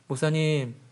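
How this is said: It is said in a dull, blank tone.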